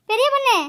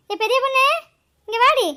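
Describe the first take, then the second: First: Calling out. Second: Insistent call. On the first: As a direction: summon her sharply from a distance. Grandmother calls daughter-in-law. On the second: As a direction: yell for her again, impatient. Calls again, more insistent. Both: Acted.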